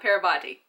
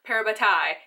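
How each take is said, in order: First: The word ends with a 'tee' sound. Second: The word ends with a 'tie' sound. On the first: The speaker calls it wrong. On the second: The speaker calls it right. "I have been saying it right"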